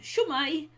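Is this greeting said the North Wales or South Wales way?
South. It is said in the South Wales form. "So for South Wales, which is where we are, ... we say shwmai"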